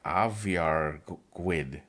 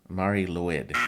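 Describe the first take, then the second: First: It is said with a different, native-like pronunciation. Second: It is read out just as spelled. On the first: The speaker calls it right. "it's actually like" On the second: The speaker calls it wrong. "is what it looks like it would be pronounced as"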